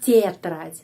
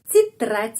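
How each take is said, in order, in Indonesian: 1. Vokal pertama bukan i. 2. Vokal pertama berbunyi i. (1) "bukan titrat" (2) "Jadi titrat"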